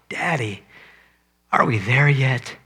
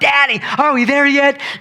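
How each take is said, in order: First: It sounds heartsick and pained. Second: It sounds childlike and excited.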